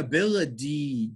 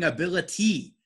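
First: The T is said as a D sound. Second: The T is said as a clear T sound. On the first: "I'm saying ability. ... it makes a D sound" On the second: "I'm actually not saying ability"

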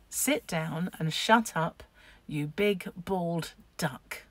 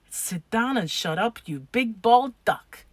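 First: It is said slowly and clearly. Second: It is acted out quickly and fluently.

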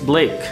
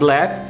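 First: The name is said rhyming with make. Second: The name is said like the word black. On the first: The speaker calls it right. "it's Blake" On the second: The speaker calls it wrong.

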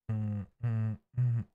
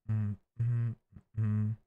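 Both takes have the same delivery.

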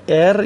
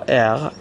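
First: The r is made at the front of the mouth. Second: The r is made at the back of the throat. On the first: "به صورت ر" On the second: "یا غ"

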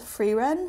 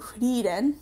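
First: The name is said with English pronunciation. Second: The name is said with Japanese pronunciation. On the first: "it feels weird when I say it like that" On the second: "I'm used to saying Frieren"

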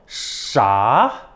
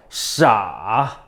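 First: It is said with the second tone. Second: It is said with the third tone. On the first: "이성" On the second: "삼성"

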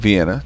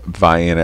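First: It is said the way Austrians pronounce it. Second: It is said the way locals pronounce it. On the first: This is how the rest of the world says it. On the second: This is how the nearby town says it.

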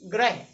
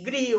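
First: The r is followed by an 'ra' vowel sound. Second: The r is followed by an 'ri' vowel sound. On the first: This is how North Indian speakers usually say it. "हम लोग कहेंगे" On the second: This is the form the written word calls for. "शब्द से गृह होता है"

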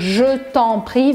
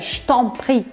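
First: Every syllable is said fully and clearly. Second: It is said faster with some sounds dropped.

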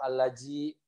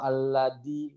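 First: The middle consonant is a j sound. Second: The middle consonant is a hard d. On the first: "atau alaji" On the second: "atau aladi"

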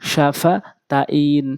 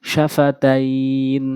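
Both takes have the same delivery.

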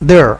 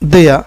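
First: The word ends with an audible r sound. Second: The word ends without an r sound. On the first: "American ইংলিশে আপনি আর দিয়ে উচ্চারণ করতে পারবেন" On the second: "British ইংলিশে মূলত আর বাদ দিয়ে উচ্চারণ করতে হয়"

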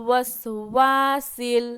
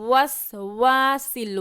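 No difference in how they are said.

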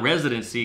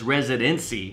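First: The stress falls on the first syllable. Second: The stress falls on a later syllable. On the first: It is the normal form, which does not rhyme. "Not residency, because that don't rhyme" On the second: It is bent to rhyme with trendy and frenzy. "Residency puts the enunciation on the wrong syllables to make it make sense"

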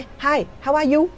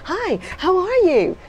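First: The greeting is said in a flat, dull tone. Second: The greeting is said with lively, cheerful intonation. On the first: The speaker calls it wrong. "Chứ không lẽ" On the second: The speaker calls it right. "Ví dụ mình vui, mình hớn hở, mình gặp nó"

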